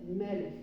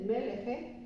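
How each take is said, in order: First: The word ends on the final consonant. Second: A vowel is sounded after the final consonant. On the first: The speaker calls it right. "se dice melech" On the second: The speaker calls it wrong. "No se dice meleje"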